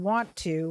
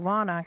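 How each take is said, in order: First: The t sound is clearly pronounced. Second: The t sound is dropped and the words blend. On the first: "which has a hard T" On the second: "a lot easier to get your mouth around"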